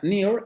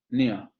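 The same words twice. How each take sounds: First: It is said with an American rhotic accent. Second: It is said with a British diphthong, no r. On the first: "en inglés americano" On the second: "en inglés británico se va a pronunciar con el diptongo"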